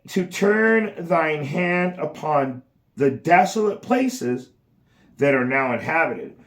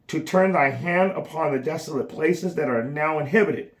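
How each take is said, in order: First: It is read at a slower pace. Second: It is read at a faster pace.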